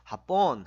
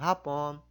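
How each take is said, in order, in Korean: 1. 강세는 두 번째 음절에 있습니다. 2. 강세는 첫 번째 음절에 있습니다. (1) "뒤에 강세가 붙어가지고 합본 하면 일본이 됩니다" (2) "앞에 강세했으면 오후입니다"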